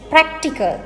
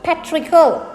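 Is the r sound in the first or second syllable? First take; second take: first; second. First: The r sound comes in the first syllable. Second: The r sound comes in the second syllable. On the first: The speaker calls it right. "it is practical" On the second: The speaker calls it wrong. "not patrical"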